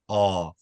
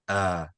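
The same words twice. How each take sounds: First: The vowel is said with the lips rounded. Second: The vowel is said with a medium mouth opening. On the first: The speaker calls it wrong. "Try not to oh your mouth" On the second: The speaker calls it right. "a medium size opening"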